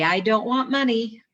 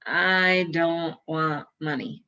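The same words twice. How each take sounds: First: "I don't want money" higher and louder, peak on "money"; "money" pushed up and loud at the end; stress on money. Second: "I don't want money" slowly, leaning on "I"; "I" punched, each word slow and even; slow, stress on I. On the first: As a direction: lift the whole line and land hard on "money". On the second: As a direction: lean on the "I" and let the words drag out. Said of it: "Raz, Say". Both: Retold or imitated.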